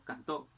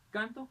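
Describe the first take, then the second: First: Cantó said can-TÓ; stress on last syllable. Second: Canto said CAN-to; stress on first syllable. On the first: Teacher contrasting word stress, cantó stressed on TÓ. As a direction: push the weight of cantó onto TÓ. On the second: Teacher contrasting word stress, canto stressed on CAN. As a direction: hit the first syllable of canto, falling after. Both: Shown as a demonstration. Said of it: "el acento puede variar".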